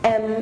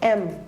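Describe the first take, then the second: First: It starts with a vowel sound. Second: It starts with a vowel sound.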